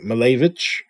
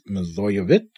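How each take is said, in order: First: The name is said in a shortened form. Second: The name is said in its full form. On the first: The speaker calls it wrong. "I've been saying Milojevic, so sort of a shortened version of her last name" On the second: The speaker calls it right. "It's Milojevic. I think I have that right"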